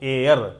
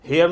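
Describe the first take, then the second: First: The word begins with a vowel sound. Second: The word begins with an h sound. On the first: The speaker calls it right. "इसको हम उच्चारण करते हैं एयर। H silent है" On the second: The speaker calls it wrong. "हेयर नहीं बोलना है"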